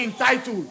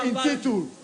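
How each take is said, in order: First: "entitled" said as en-TIE-tuled; "entitled" with TIE as its middle syllable; wrong "entitled". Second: "entitled" said as in-TIT-uled; "entitled" pronounced in-ti-tuled, the lawyer's way; legal "intituled". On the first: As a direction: say "entitled" with a long eye vowel in the middle. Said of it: "we don't say entitled". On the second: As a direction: say "entitled" with a short i and a "tool" ending. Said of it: "we say entitled". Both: Shown as a demonstration.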